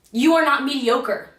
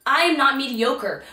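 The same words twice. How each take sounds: First: "You" pressed, the rest falling; "You" carries the weight; stress on you. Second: "am" pressed, falling after; "am" carries the weight; stress on am. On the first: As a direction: lean on "You" then let the line drop. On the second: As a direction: lean on "am", firm self-claim. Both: Shown as a demonstration.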